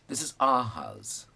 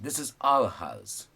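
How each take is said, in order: First: 'Our' is reduced to a short 'ah'. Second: 'Our' is said fully, like 'hour'. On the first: "now the other one" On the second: "the full thing our"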